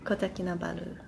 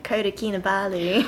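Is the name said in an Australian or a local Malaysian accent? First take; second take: local Malaysian; Australian. First: It is said with a local Malaysian pronunciation. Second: It is said with a broad Australian accent. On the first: The speaker calls it right. "how we pronounce it here is Kota Kinabalu" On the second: The speaker calls it wrong. "not like Kota Kinabalu. ... Very Aussie"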